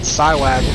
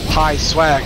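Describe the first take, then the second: First: The name begins with a 'sigh' sound. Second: The name begins with a 'pie' sound. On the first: The speaker calls it wrong. "not Psywag" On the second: The speaker calls it right. "the proper pronunciation there. Pi Swag"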